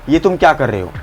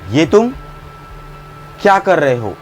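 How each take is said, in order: First: The sentence is said without a pause. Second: There is a pause after 'ye tum'. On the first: "अगर इसी को मैं ऐसा बोल दूं" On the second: "पॉज लेके बोलूं, ये तुम बोलने के बाद बीच में भी देखो मैंने रुका"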